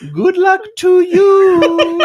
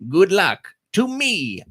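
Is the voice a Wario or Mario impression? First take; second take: Mario; Wario. First: It is said in a Mario impression. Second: It is said in a Wario impression.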